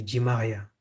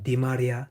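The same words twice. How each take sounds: First: French-style Di Maria, Ji Maria. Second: Said in the usual way. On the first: Shown as a demonstration. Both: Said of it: "they would say".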